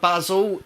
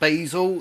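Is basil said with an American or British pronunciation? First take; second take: British; American. First: The word is said with a British pronunciation. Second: The word is said with an American pronunciation. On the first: The speaker calls it right. "A dash of basil" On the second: The speaker calls it wrong. "not basil. This is not an American show"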